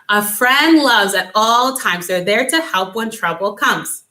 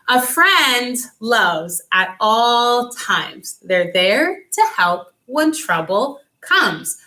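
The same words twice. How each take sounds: First: It is said at a medium fast pace. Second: It is said slowly.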